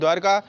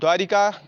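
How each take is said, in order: First: No vowel is heard between r and k. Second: An extra i vowel follows the r. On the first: The speaker calls it right. "इसे बोलते हैं द्वारका" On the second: The speaker calls it wrong. "द्वारिका अशुद्ध रूप है"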